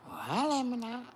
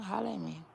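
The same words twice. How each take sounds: First: Loud, high call of Holla at me now. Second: Said in the usual way. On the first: Acted. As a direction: shout the invitation to the viewers. Calling out to viewers.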